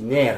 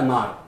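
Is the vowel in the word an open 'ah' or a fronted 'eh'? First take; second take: eh; ah. First: The vowel is a fronted 'eh' sound. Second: The vowel is an open 'ah' sound. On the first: The speaker calls it right. "on dit « ner »" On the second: The speaker calls it wrong. "on ne dit pas « nar »"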